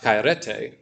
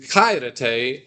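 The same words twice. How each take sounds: First: "Kairete" wrongly accented on RE; misplaced stress. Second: "Kairete" with the accent on KAI; stress on first syllable. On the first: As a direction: move the accent to the middle, "Kairete" as kai-RE-te. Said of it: "and not". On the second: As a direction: hit the first syllable of "Kairete", let the rest reduce. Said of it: "The accent is on the first one". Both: Shown as a demonstration.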